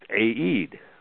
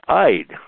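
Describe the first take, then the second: First: The name is said as two syllables. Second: The name is said as one syllable. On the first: It is read as a non-English name. The speaker calls it right. "his name was pronounced A-E-D, two syllables" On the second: It is read as an English word. The speaker calls it wrong. "if you looked at that in an English word, you would say it's Eid"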